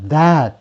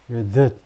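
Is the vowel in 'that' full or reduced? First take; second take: full; reduced. First: The vowel is full and clearly open. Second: The vowel is weak and barely audible. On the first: It is used as a demonstrative. "지시형용사, 지시대명사 할 때" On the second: It is used as a conjunction. "접속사 할 때는 that이고요"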